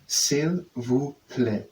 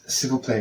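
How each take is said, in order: First: "s'il vous plaît" very slowly, as three separate words; English-guide reading. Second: Said in the usual way. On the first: Shown as a demonstration. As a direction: read "s'il vous plaît" word by word from English spelling, stretched out. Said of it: "saying it could be in English". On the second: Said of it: "but they're saying it could be in English".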